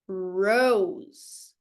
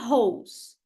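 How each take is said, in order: First: The first R sound is strongly pulled back. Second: The first R sound is light and weak. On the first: The speaker calls it right. "A gente puxa" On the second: The speaker calls it wrong. "a gente não fala rose"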